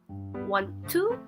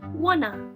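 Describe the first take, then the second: First: Both words are said fully and separately. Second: The two words blend into one reduced form.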